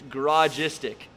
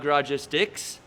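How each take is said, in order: First: The name ends without an s sound. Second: The name ends with an s sound. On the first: The speaker calls it right. "it's Garagistic" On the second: The speaker calls it wrong. "not Garagistics"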